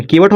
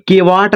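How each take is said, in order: First: केवट with short second vowel, ke-vat; natural केवट, ending in short vat; correct केवट. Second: केवाट with long aa, ke-vaat; the wrong reading केवाट, long vaa; misread केवाट. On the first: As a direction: keep the end of केवट short. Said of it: "केवट हो गया". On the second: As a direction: stretch the second vowel of केवाट. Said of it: "केवाट नहीं होता". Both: Shown as a demonstration.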